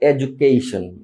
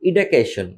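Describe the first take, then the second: First: The word begins with an 'eh' vowel. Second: The word begins with an 'ee' vowel. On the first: The speaker calls it right. "But এটাকে বলতে হবে এডুকেশন" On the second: The speaker calls it wrong. "আমরা বলি ইডুকেশন"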